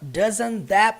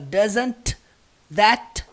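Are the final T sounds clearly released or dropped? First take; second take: dropped; released. First: The final T sounds are dropped in fast speech. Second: The final T sounds are pronounced strongly. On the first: The speaker calls it right. "os T's, eles são omitidos na hora da pronúncia" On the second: The speaker calls it wrong. "Então você não vê ele falando assim"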